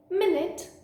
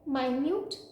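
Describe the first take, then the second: First: The stress is on the first syllable. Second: The stress is on the second syllable. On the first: It refers to a unit of time. "a unit of time" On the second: Something is tiny or small. "tiny or small"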